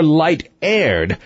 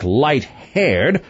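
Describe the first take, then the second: First: "light-aired" with aired starting straight on the vowel. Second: "light-haired" with a sounded H at the start of haired; aspirated H. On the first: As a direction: leave any H off "light-aired". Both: A narrator's reading. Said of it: "aspirate her vowels".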